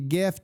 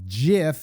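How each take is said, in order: First: It begins with a hard G sound. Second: It begins with a soft J sound. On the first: The speaker calls it right. "It's a hard G" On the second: The speaker calls it wrong. "It is not GIF, J I F"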